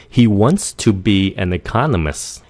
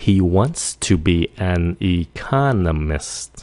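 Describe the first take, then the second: First: Natural speed. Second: Slowed-down model. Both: Shown as a demonstration. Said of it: "Nếu nói nhanh".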